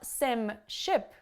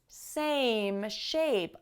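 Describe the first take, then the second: First: The vowels are short. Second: The vowels are long. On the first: The speaker calls it wrong. "is not sim ship" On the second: The speaker calls it right. "it's same shape. Long vowels are super important"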